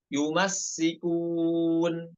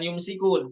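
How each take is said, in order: First: The s is doubled after an added vowel. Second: The s is single, with no added vowel. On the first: The speaker calls it right. "sinnya dibaca tasydid" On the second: The speaker calls it wrong. "bukan yumsikun"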